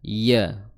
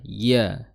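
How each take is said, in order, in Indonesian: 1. Suku kata itu diucapkan dengan tenaga dan tekanan. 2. Suku kata itu diucapkan dengan tenaga dan tekanan.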